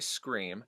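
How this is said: The word starts directly with the s sound. "general American, we say scream"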